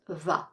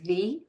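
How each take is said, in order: First: The vowel is a short 'uh' sound. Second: The vowel is a long 'ee' sound. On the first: This form is used before consonant sounds. The speaker calls it right. "but it's pronounced the" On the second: This form is used before vowel sounds. The speaker calls it wrong. "it's not pronounced the"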